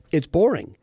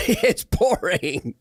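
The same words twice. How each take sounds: First: Said in the usual way. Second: Slow, laughing drag on It's boring; drawn-out mocking verdict. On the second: Shown as a demonstration. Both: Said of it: "but guess what?".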